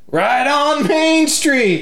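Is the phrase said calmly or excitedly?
excitedly. It is said excitedly, with enthusiastic energy. Main Street is great. "And she's like"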